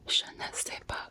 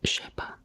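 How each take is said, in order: First: The word 'ne' is pronounced in full. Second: The word 'ne' is dropped entirely. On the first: "instead of saying like je ne sais pas" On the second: "it's je sais pas"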